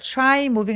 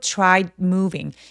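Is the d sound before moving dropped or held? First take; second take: dropped; held. First: The d sound is dropped completely. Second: The tongue touches the roof for a held d. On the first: The speaker calls it wrong. "try moving 아니고" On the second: The speaker calls it right. "디귿 받침이 있는 것처럼 혀가 천장에 닿았다가 moving으로 넘어가"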